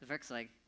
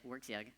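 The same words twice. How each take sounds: First: It is said with a European pronunciation. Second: It is said with an American pronunciation. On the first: "Here in Europe, Werkzeug is probably more idiomatic" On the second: "Americans pronounce it"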